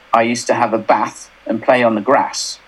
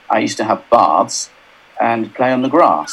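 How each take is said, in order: First: It is said in a northern English accent. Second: It is said in a southern English accent.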